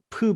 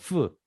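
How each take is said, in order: First: The consonant is a strong, stopped p sound. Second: The consonant is a soft, fricative f sound. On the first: The letter has a dot. "점이 있으면 프 발음이 납니다. 더 강하죠" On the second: The letter has no dot. "점이 없으면 연한 발음"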